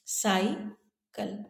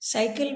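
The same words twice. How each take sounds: First: साइकिल very slowly in two parts, साइ, pause, किल; split into syllables. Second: Said in the usual way. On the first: Shown as a demonstration. Teacher showing children the two syllables, साइकिल slowly split. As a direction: break साइकिल after साइ and draw it out. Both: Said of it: "दो syllable है".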